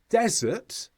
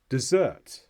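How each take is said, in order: First: The stress is on the first syllable. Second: The stress is on the second syllable. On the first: It names a dry place. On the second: It means to leave someone. "which means to leave"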